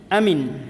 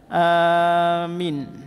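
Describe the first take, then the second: First: The first vowel is kept short. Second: The first vowel is held long. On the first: "hamzah dibaca pendek, Mim tidak ditasydid dan huruf ya dihilangkan" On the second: "Hamzah dipanjangkan, mim tidak ditasydid, dan huruf ya dibuang"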